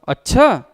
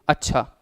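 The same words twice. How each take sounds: First: It sounds like objecting to the request. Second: It sounds like agreeing to the request.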